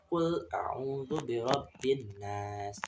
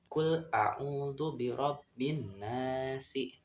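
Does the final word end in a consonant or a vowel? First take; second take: consonant; vowel. First: The last word ends on a bare s sound. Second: The last word ends with a short i vowel. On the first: The reading stops at this word. "saat wakaf atau berhenti" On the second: The reading continues on without stopping. "membacanya saat wasol atau disambung"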